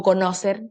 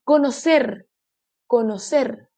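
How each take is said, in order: First: "conocer" mispronounced as co-NÓ-cer; "conocer" with stress moved back to NO; wrong stress on middle. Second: "Conocer" as co-no-CER; "Conocer" with the final syllable emphasised; stress on last syllable. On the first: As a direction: punch NO in "conocer". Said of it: "O conocer". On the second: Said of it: "sílaba tónica, última sílaba". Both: Shown as a demonstration.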